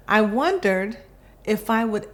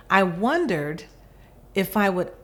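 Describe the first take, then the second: No difference in how they are said.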